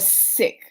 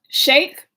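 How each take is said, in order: First: The word begins with an s sound. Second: The word begins with a sh sound. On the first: "I don't think it's sick" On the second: "Is it a S H"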